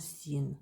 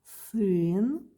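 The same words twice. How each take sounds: First: Син with и in place of ы; wrong soft vowel. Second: Сын stretched on the hard vowel ы, not "ee"; correct hard ы. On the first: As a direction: say син with an "ee" sound, like "seen". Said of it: "not син". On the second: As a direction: say Сын long and loud with a back ы. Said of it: "please pronounce ы and not и". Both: Shown as a demonstration.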